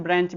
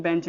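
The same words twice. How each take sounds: First: ब्रेंच said with an r after the b, brench; brench variant. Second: बेंच said with no r, plain bench; bench variant. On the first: Teacher showing students the variant, brench with an r. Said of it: "ब्रेंच भी कहते हैं". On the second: Teacher showing students the other variant, plain bench. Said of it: "बेंच भी कहते हैं". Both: Shown as a demonstration.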